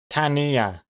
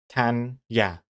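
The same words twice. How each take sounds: First: The name is said with three syllables. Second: The name is said with two syllables. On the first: "But X Comics thinks it's three" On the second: "I think it's two"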